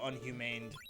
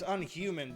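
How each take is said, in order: First: The name ends with an added 'd' sound. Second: The name ends plainly without an extra sound. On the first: The speaker calls it wrong. "if I read it too fast, I go unhumaned" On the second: The speaker calls it right. "it's Unhuman"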